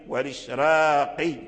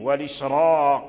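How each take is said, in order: First: The r sound is thin and light. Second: The r sound is thick and heavy. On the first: "فبعض الأئمة قرأوها بالترقيق" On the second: "وبعضهم قرأها بالتفخيم"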